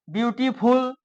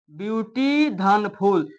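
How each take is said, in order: First: Said in the usual way. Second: "ब्यूटी धन फुल" slowly, a gap between the two parts; split into syllables. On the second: Shown as a demonstration. Teacher showing students two syllables, "ब्यूटी धन फुल" slowly split apart. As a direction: break "ब्यूटी धन फुल" into its spoken chunks. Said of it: "इसमें दो syllable हैं".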